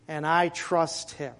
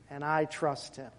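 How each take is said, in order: First: "And I trust Him" slow with "I" stressed; slow affirmation. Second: "And I trust Him" repeated much softer; quiet echo. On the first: Preacher affirming faith to the congregation, slow and firm. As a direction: say "And I trust Him" slowly, leaning on "I". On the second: Preacher quietly echoing his trust before the church. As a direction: echo "And I trust Him" softly, almost to yourself. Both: Shown as a demonstration.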